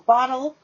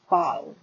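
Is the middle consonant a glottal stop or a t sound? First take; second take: t sound; glottal stop. First: The middle consonant is a clear t sound. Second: The middle consonant is a glottal stop.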